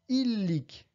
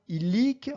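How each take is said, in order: First: The stress is on the first syllable. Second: The stress is on the last syllable. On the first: The speaker calls it wrong. "et non pas illic" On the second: The speaker calls it right. "en accentuant sur la première syllabe en partant de la fin"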